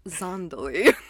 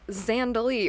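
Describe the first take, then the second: First: The name is pronounced an odd, different way. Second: The name is pronounced the common way. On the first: Only one actor in the film says it this way. "if you're Nick Cage, the only one in the movie to pronounce it Zandali" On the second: This is how most people say the title. "We are talking about the movie Zandali"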